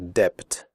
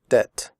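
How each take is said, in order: First: The b sound is pronounced. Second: The b sound is silent. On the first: The speaker calls it wrong. "We do not say debt" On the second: The speaker calls it right. "We say debt"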